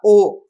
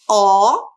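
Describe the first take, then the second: First: The O vowel is said closed, mouth less open. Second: The O vowel is said open, mouth more open. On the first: "Ele fecha o som dela, então fica O" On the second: "Então o som do O é aberto, fica O"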